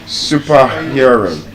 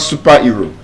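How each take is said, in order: First: The vowel in 'hero' is an 'ear' sound. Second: The vowel in 'hero' is not an 'ear' sound. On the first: The speaker calls it right. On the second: The speaker calls it wrong.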